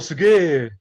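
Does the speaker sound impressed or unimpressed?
impressed. It is said in an impressed, enthusiastic tone. Something is great. "This means great, fantastic"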